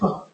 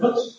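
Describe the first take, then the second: First: The final T is replaced by a glottal stop. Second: The final T is clearly pronounced.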